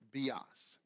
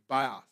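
First: The word is pronounced the Greek way. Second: The word is pronounced the English way. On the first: "but in Greek it's bios" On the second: "you would pronounce it bios"

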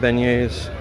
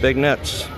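First: It is pronounced like 'ben-yay', with no hard consonants. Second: It is pronounced like the English words 'big nets'. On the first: The speaker calls it right. "Called beignets" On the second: The speaker calls it wrong. "No, I know they're not called Big Nets"

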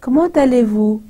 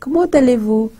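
Both takes have the same delivery.

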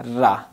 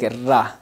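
First: The r sound is thin and light. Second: The r sound is thin and light.

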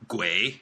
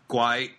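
First: It is said with the Mandarin pronunciation. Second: It is said with the Cantonese pronunciation.

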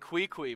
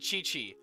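First: Each syllable starts with a 'kw' sound. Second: Each syllable starts with a 'ch' sound. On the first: The speaker calls it wrong. "pronouncing these names atrociously" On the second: The speaker calls it right. "it's Ka-Ching and Chi-Chi. I know better now"

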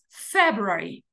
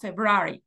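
First: The stress falls on the first syllable. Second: The stress falls on a later syllable. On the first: The speaker calls it right. "decimos February" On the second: The speaker calls it wrong. "en inglés no decimos February"

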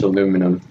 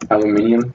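First: The word ends with a short -num syllable. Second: The word ends with an extra -ium syllable. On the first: This is the form the speaker believes is correct. "but I'm pretty sure it's aluminum" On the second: This is how some people from elsewhere say it. "That's how Vic Star pronounces it"

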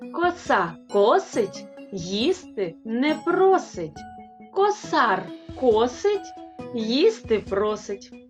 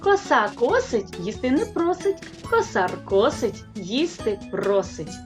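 First: It is spoken at a moderate, unhurried pace. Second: It is spoken at the fastest pace.

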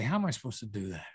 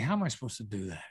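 First: The tone is humble and deferential. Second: The same.

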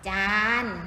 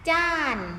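First: The syllable is said on a level mid tone. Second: The syllable is said on a falling tone.

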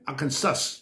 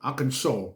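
First: It is read letter by letter as spelled. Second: It ends in an aw sound, s silent. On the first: The speaker calls it wrong. "ถ้าเราอ่านตามตัวสะกดจะเป็น" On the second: The speaker calls it right. "ฝรั่งเขาจะพูดว่า"

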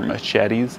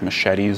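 First: It is said imitating a thick foreign accent. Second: It is said in the speaker's plain accent.

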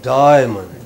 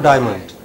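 First: The first vowel is drawn out long. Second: The first vowel is said short. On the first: The speaker calls it right. "die is very long" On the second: The speaker calls it wrong. "It's not diamond"

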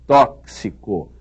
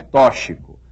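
First: The x is sounded as ks. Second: The x is not sounded as ks. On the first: The speaker calls it right. "é tóxico" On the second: The speaker calls it wrong. "não é tóxico"

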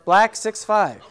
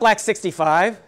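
First: The number is said digit by digit, six five. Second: The number is said as one number, sixty-five. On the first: The speaker calls it right. "So say each number" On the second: The speaker calls it wrong.

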